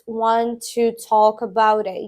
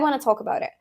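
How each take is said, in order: First: Each word is said separately and carefully. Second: The words run together in connected speech. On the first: The speaker calls it wrong. "it's rare if someone says... it sounds off" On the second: The speaker calls it right. "ninety-nine percent of the time you will hear it like"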